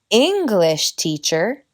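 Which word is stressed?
English. The stress falls on the first word. It names a teacher of the English language. "enseña inglés"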